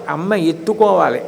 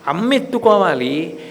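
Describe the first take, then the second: First: ఎత్తుకోవాలి stressed with a falling tune; stress on ettukovaali. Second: అమ్మ stressed with a rising tune; stress on amma. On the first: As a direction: land firmly on ఎత్తుకోవాలి. (ఎత్తుకోవాలి పై ఒత్తిడి, దిగే స్వరం) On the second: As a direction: lean on అమ్మ and lift the end. (అమ్మ పై ఒత్తిడి, పైకి లేచే స్వరం) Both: Shown as a demonstration. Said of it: "repeats the child's wish".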